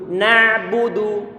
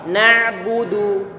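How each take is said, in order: No difference in how they are said.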